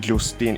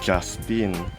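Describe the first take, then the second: First: The first syllable has a plain 'u' vowel. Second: The first syllable has a 'ya' glide sound. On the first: The speaker calls it wrong. "It's not Justin" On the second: The speaker calls it right. "it's Justin. So I I just put a ya sound instead of u sound"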